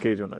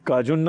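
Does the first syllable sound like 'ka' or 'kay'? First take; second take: kay; ka. First: The first syllable has an 'ay' vowel. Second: The first syllable has an open 'aa' vowel. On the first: The speaker calls it right. "કેજુન જ સાચા છો" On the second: The speaker calls it wrong. "કાજુન ના બોલે"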